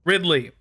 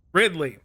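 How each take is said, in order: Both takes have the same delivery.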